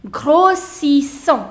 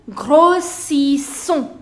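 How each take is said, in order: No difference in how they are said.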